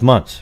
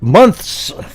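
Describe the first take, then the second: First: The th sound is dropped entirely. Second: The th sound is clearly pronounced. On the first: The speaker calls it right. "it's just months" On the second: The speaker calls it wrong. "Nobody out there actually pronounces the th. Nobody goes"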